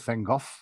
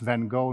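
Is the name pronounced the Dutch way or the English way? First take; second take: Dutch; English. First: The name is pronounced the Dutch way. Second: The name is pronounced the English way. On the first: The speaker calls it right. "instead of Van Gogh" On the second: The speaker calls it wrong. "in English speaking uh, terms, it is Van Gogh"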